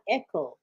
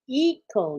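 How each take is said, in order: First: The first syllable sounds like 'eh'. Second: The first syllable sounds like 'ee'. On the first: The speaker calls it wrong. "not echo" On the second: The speaker calls it right. "Eco, not echo"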